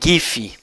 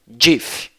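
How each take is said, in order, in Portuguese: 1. Começa com som de G forte. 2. Começa com som de J. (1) "eu sempre falei GIF para o formato" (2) "o G aqui com o som de J"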